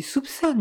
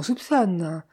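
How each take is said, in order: First: Soupçonne drawn out slowly and deliberately; soupçonne set apart, slow and pointed; stress on soupçonne. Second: Said in the usual way. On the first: A narrator's reading. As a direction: dwell on the word soupçonne to underline it. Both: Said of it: "Je dis soupçonne".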